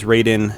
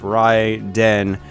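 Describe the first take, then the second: First: The name is said a non-Japanese way. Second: The name is said the Japanese way. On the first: This is how some people outside Japan say it. "depending on where you come from, you might uh, refer to it as Raiden" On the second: This is how it was originally intended to be said. "In Japan it's technically pr pronounced Raiden"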